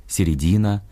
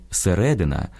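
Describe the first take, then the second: First: «середина» as Russian, stressed on the third syllable, середИна. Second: «середина» stressed on the second syllable, серЕдина; Ukrainian stress. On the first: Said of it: "російське". («середина» — російською, наголос на «ди») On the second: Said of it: "українське". («середина» — наголос на «ре») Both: Shown as a demonstration.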